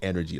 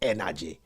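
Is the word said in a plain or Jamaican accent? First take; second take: plain; Jamaican. First: It is said in a plain accent. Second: It is said in a Jamaican accent.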